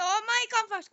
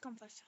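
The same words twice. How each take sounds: First: Loud, high urgent call. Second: Said in the usual way. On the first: Real, not acted. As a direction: shout for them to hurry. Urging teammate.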